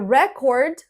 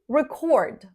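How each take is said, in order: First: The stress is on the first syllable. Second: The stress is on the second syllable. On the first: It is used as a noun. "when we use these words as a noun, we stress the first syllable" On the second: It is used as a verb. "as verbs, we stress the second syllable"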